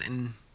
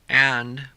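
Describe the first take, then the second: First: The word is reduced to a weak in. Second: The word is said in full.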